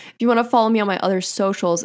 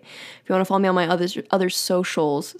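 First: Said in the usual way. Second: Stumbling and repeating other, other; stutter. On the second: Real, not acted. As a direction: trip over the word other and restart. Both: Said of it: "see, I stuttered".

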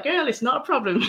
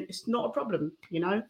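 First: Higher, laughing mock mum voice without the accent; a light, laughing take on mum, no accent; mum's words, no accent. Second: Said in the usual way. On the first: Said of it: "I won't do the accent, but she was like". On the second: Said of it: "But she always said to me".

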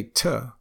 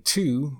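First: "to" reduced to a short tuh. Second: Said in the usual way. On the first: Shown as a demonstration. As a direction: say "to" with an uh vowel. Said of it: "we'll say to". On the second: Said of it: "instead of saying to".

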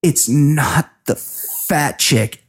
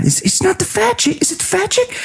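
First: Slow, teary, drawn-out denial; mock tearful. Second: High, mocking sing-song of the question; mocking Alec. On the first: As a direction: imitate her holding back tears, slowly. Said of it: "kind of tearing up". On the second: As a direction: ham it up in a much higher mocking voice. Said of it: "He goes".

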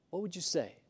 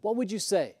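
First: Much softer, almost to themself; soft echo of the question; hushed repeat. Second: Said in the usual way. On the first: Shown as a demonstration. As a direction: let it sink in quietly. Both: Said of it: "repeat softer".

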